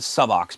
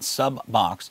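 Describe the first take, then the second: First: The name is said with a single b sound. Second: The name is said with a doubled b sound. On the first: The speaker calls it right. "I'm pronouncing it Subox because it's only using one B in it" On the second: The speaker calls it wrong. "it's not Subbox"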